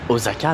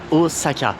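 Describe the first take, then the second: First: The middle consonant is a voiced z sound. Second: The middle consonant is a voiceless s sound. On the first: The speaker calls it wrong. "c'est pas un putain de Z" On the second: The speaker calls it right. "ça se dit Osaka"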